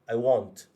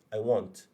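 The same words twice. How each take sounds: First: The vowel in want is rounded, like 'o'. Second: The same.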